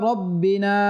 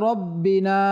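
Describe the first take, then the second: Both takes have the same delivery.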